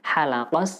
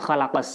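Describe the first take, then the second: First: The word begins with a smooth h sound. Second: The word begins with a raspy kh sound. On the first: He shaved the heavens and the earth. The speaker calls it wrong. "dengan huruf ha bukan huruf kha" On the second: He created the heavens and the earth. The speaker calls it right. "khalaqa menggunakan huruf kha"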